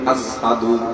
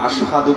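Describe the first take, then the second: First: The word begins with an 's' sound. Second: The word begins with a 'sh' sound. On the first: "শিনুর জায়গাত সিন হইতো" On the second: "আশহাদু বলতে পারতেন না"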